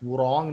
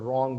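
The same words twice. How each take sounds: First: The word begins with a w sound. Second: The word begins with an r sound. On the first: The speaker calls it wrong. "wrong नहीं बोलेंगे" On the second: The speaker calls it right. "उसको wrong बोलेंगे, because W is silent"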